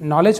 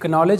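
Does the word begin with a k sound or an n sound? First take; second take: n sound; k sound. First: The word begins with an n sound. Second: The word begins with a k sound. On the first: The speaker calls it right. "नॉलेज पढ़ेंगे" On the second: The speaker calls it wrong. "इसे कनॉलेज नहीं"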